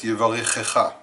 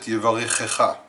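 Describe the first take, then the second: First: A vowel splits the two ch sounds. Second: The same.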